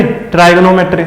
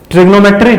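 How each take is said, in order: First: ट्राइगोनोमेट्री with first syllable as "trai"; "trai" variant. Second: ट्रिग्नोमेट्री with short i, as "trig"; short "trig" variant. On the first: Teacher asks which one students use, "trai" in ट्राइगोनोमेट्री. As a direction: begin ट्राइगोनोमेट्री with an "eye" vowel. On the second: Teacher asks which one students use, short "trig" in ट्रिग्नोमेट्री. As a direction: begin ट्रिग्नोमेट्री with a quick "trig". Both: Shown as a demonstration. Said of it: "तुम लोग क्या पढ़ते हो?".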